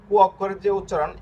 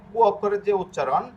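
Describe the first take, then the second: No difference in how they are said.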